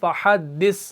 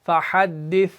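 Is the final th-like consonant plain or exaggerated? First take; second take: exaggerated; plain. First: The final consonant is pushed out, exaggerated. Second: The final consonant is said plainly and softly. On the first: The speaker calls it wrong. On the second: The speaker calls it right.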